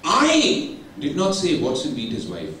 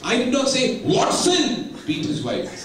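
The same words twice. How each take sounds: First: The stress falls on the word I. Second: The stress falls on the word Watson. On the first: Someone else said it. "somebody else would have told" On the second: Someone else beat his wife. "Pavas Chandra would have beaten his wife"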